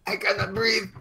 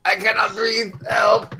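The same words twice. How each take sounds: First: High, quiet and choking; gasping old man. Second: Put-on desperate old man. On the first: Acted. Old man on the ground gasping to the cops, quiet. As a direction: wheeze it out with little air. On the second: Old man crying out to the crowd, desperate. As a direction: cry out for help, choking. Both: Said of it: "you hear the old man".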